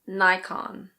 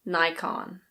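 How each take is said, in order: First: It is said with an American pronunciation. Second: It is said with an American pronunciation.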